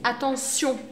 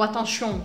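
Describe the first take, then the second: First: The ending is said with an s sound. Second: The ending is said without an s sound. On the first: The speaker calls it right. "é como se fosse com um S" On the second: The speaker calls it wrong. "Com um sotaque meio francês"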